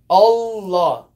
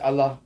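First: The L sound is held long. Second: The L sound is short, English style. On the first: The speaker calls it right. "you hold the lamb" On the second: The speaker calls it wrong. "it's not like we read in English"

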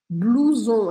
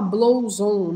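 First: The first vowel is a single 'oo' sound. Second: The first vowel is read as separate 'o-u'. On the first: The speaker calls it right. "a gente tem OU com som de U" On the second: The speaker calls it wrong. "a gente não fala blouson"

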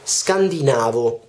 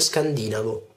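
First: The stress falls on the syllable 'na'. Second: The stress falls on the syllable 'di'. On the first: The speaker calls it right. "In realtà si dice scandinavo" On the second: The speaker calls it wrong. "non scandinavo"

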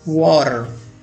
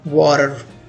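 First: It is said in an American accent, with the r. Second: The same.

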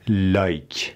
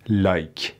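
No difference in how they are said.

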